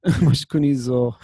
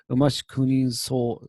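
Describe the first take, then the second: First: "zo" with a voiced Z, louder; corrected "zo". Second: "zo" misread with an S, as "so"; unvoiced S in place of Z in "zo"; mistaken "so" for zo. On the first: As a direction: correct the last word to a firm, long "zo". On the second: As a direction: read the last word as "so" instead of zo. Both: Shown as a demonstration. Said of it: "This is actually supposed to be zo".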